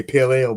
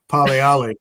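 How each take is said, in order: First: Said in the usual way. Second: "Pale Ale" said as "pal ee-ali"; "Pale" with an open "ah", "Ale" as "ee-ali"; Polish-accented "Pale Ale". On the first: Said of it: "but it came across as". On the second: Retold or imitated. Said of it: "it came across as".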